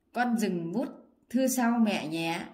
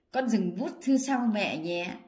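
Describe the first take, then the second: Both takes have the same delivery.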